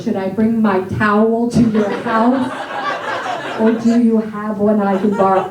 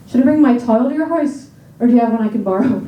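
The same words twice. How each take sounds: First: American vowels in "towel"; plain American take of the sentence; American accent. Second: Irish vowels in "tile", said "tile" for towel; Irish accent, vowels bent. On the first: Brothers practicing, sentence in American accent. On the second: Brothers practicing, sentence in Irish accent. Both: Shown as a demonstration. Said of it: "practicing this accent every day".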